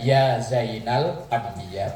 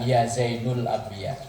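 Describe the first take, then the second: First: The vowel after 'Zain' is an 'a'. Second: The vowel after 'Zain' is a 'u'. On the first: The speaker calls it right. "dibaca nasab" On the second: The speaker calls it wrong. "bukan ya Zainul Ambiya. Salah"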